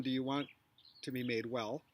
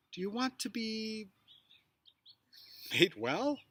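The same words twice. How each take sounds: First: Said in the usual way. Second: Long pause after "be", then "made well?" rising; pause before made well. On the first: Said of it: "kind of flat". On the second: Shown as a demonstration. Teacher showing a pause placement inside Jesus' question. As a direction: break after "to be", land "made well?" with a rise. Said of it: "different placements of pauses".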